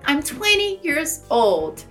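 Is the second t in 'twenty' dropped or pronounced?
dropped. The second t in twenty is dropped. "E eu diria, pelo inglês americano"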